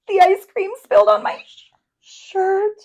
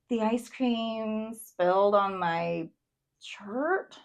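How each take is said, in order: First: It sounds scared and worried. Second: It sounds confused and puzzled.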